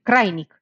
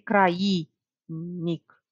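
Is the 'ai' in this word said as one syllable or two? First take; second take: one; two. First: The a and i join in one syllable. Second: The a and i fall in separate syllables. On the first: The speaker calls it right. "Zic crainic. Deci aici vine diftong" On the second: The speaker calls it wrong. "nu zic crainic"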